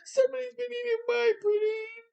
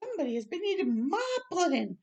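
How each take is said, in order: First: It is said in a small sweet voice. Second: It is said in a middle-sized voice.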